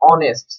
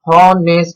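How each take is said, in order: First: The word begins with a vowel sound. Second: The word begins with an h sound. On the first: The speaker calls it right. "অ এর মতো উচ্চারিত হবে" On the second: The speaker calls it wrong. "আমরা কিন্তু হনেস্ট বলবো না"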